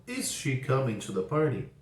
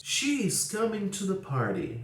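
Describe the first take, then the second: First: "Is" stressed at the start, rising question tune. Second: "She is coming to the party." said slowly with a falling end; slow statement. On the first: Teacher modelling the inverted question for students, rising. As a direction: ask it, lifting on "Is". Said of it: "Inversão". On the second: Teacher modelling the statement before inverting it, slow and falling. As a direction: read the statement slowly, letting it fall. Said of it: "Outro exemplo". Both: Shown as a demonstration.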